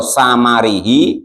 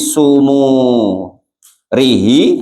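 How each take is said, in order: First: The first two vowels are a sounds. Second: The first two vowels are u sounds. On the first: "bifathis sa'i dengan dibaca fathah sa-nya, wal mimi dan mimnya" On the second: "wa bidomihuma dan juga domanya sa dan mim"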